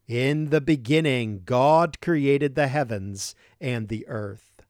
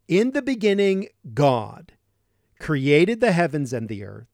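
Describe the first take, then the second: First: Said in the usual way. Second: God set apart and weighted; stress on God. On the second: Shown as a demonstration. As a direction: lean hard on the word God. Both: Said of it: "Notice the emphasis on God".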